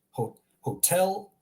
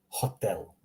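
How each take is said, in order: First: "hotel" as hoh-TELL, slow and gliding; English pronunciation. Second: "hotel" with short pure o, lower pitch; Croatian pronunciation. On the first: Teacher contrasts for learners, slow English "hotel". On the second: Teacher contrasts for learners, Croatian "hotel" with pure o. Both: Shown as a demonstration.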